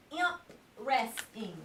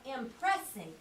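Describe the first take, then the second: First: Impressing split as "imp", pause, "resting"; M P joined. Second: Impressing with "press" kept whole; P R blended. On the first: Teacher shows a syllable split, imp kept apart from resting. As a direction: slowly say imp, then resting separately. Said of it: "If we put M P together". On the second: Teacher shows the right blend, impressing said as one word. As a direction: say impressing as im-PRESS-ing, joined up. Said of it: "If we put P R together". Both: Shown as a demonstration.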